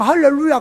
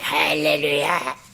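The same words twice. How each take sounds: First: It is said in a plain, natural voice. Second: It is said in an affected husky voice.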